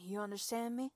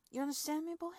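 First: Said in the usual way. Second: You understand me pushed higher and louder; insistent repeat. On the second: Acted. Dominant woman demanding her partner's answer, louder.

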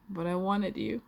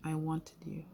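First: Higher and louder, stress on "wanted", rising end; urgent insistence. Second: Said in the usual way. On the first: Acted. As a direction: burst out the longing. Torn between wanting and fear.

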